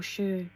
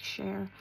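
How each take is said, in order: First: "Cher" said the other way, with a clipped-off ending; alternative pronunciation. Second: "Cher" said one way, with a fuller ending; first pronunciation attempt. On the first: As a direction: offer "Cher" as a second guess, dropping the final r. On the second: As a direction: say "Cher" as the first of two guesses. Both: Shown as a demonstration. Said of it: "How do you say it?".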